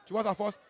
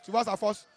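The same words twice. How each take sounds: The two takes are said the same way.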